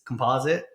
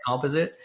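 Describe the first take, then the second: First: It is said the American way. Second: It is said the Canadian way.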